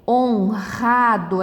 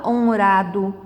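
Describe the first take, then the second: First: Slow "Honrado" with guttural R, hon-hado; strong R. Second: "honrado" with a tapped R, as in caro; wrong weak R. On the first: Teacher showing the correct word, strong R. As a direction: say "Honrado" with the R breathed like an h. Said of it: "Percebeu que ele fica forte também?". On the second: Teacher showing what one does not say, weak tapped R. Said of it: "A gente não fala honrado". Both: Shown as a demonstration.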